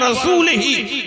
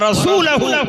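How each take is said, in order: First: The word ends with the vowels i-hi. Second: The word ends with the vowels u-hu. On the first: God is free of the idolaters and of his own messenger. The speaker calls it wrong. "पढ़ने वाले ने पढ़ दिया" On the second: God and his messenger are both free of the idolaters. The speaker calls it right. "जैसे कुरान की आयत"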